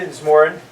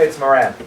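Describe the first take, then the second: First: The name is said the Irish way. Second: The name is said the American way.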